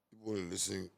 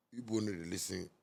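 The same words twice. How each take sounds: The two takes are said the same way.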